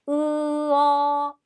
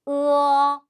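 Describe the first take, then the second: First: It is drawn out into two separate syllables. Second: It is said lightly and quickly as one syllable. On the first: The speaker calls it wrong. "이렇게 읽으시면 안 되고" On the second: The speaker calls it right. "가볍게 빨리 어로 끝내주시면 되겠습니다"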